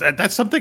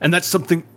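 First: It is said in an old-sounding character voice. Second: It is said in a natural, ordinary voice. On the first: The speaker calls it right. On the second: The speaker calls it wrong.

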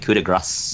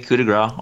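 First: It is said with a French-style pronunciation. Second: It is said with an English-style pronunciation. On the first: The speaker calls it right. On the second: The speaker calls it wrong.

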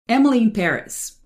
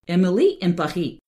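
First: It is said with a plain English accent. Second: It is said with a fake French accent.

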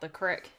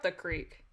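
First: It is said in a Southern US accent. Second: It is said in a standard accent.

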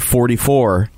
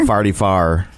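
First: Forty-four is said with a plain general accent. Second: Forty-four is said with a St. Louis accent.

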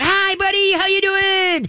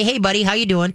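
First: The greeting is excited and revved up. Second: The greeting is calm and low-key.

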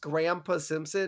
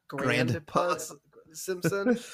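First: Grandpa is said without a d sound. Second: Grandpa is said with a d sound. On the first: The speaker calls it right. "It's pronounced Grandpa Simpson" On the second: The speaker calls it wrong. "not Grandpa Simpson"

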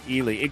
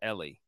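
First: The name begins with an 'eye' sound. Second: The name begins with an 'eh' sound. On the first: The speaker calls it wrong. "I keep messing that up" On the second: The speaker calls it right. "it's just Ellie"

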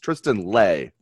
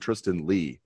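First: The surname ends with an 'ay' sound. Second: The surname ends with an 'ee' sound. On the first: The speaker calls it right. "It's Tristan Lay" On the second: The speaker calls it wrong. "I've been calling him Tristan Lee"

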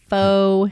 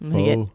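First: The word is said with a long 'foe' vowel. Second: The word is said with a short 'fuh' vowel.

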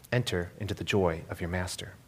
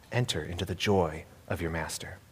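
The two takes are said the same way.

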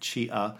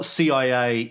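First: It is one word starting with a ch sound. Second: Each of the three letters is spoken separately.

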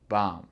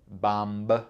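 First: The word ends on the m sound. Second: A b sound is heard at the end. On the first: The speaker calls it right. "On dit BAM" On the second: The speaker calls it wrong. "C'est pas BAMB"

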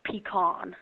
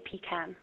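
First: It is said the American Texan way. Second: It is said the British way.

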